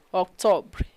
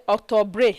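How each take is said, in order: First: Octobre stopping on "br", no "ay" after; silent final E. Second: Octobre with the final E sounded, "octo-bray"; mispronounced octobre. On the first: Teacher models ignoring the E, octobre cut off after "br". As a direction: let octobre end on its consonants. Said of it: "You ignore it". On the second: Teacher shows a mistake, octobre ending in a sounded "bray". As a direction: end octobre on an accented "ay". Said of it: "You don't say octobre". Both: Shown as a demonstration.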